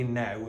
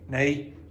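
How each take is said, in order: First: The vowel sounds like standard 'ow'. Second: The vowel sounds like 'ay', Northern Irish style. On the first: "it's not going to be now" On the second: "the pronunciation of now changes in Northern Ireland"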